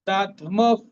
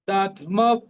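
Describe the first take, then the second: No difference in how they are said.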